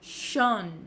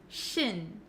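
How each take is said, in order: First: The ending has a rounded o vowel. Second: The ending has a short unrounded i vowel. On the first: The speaker calls it wrong. "a lot of students say shon" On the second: The speaker calls it right. "we actually pronounce it as shin"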